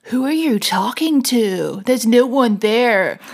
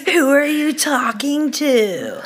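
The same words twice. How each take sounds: First: Lightly put-on American accent; a hint of American, slow and drawn. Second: Mocking American accent, slow, laughing. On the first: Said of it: "I think that was an American accent".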